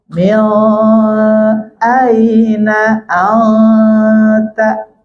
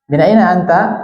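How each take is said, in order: First: The first word ends with an l sound. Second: The first word ends with a clear n sound. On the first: The speaker calls it wrong. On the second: The speaker calls it right.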